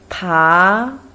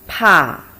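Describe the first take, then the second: First: It is said with the second tone. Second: It is said with the fourth tone. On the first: "Second tone" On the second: "Fourth tone"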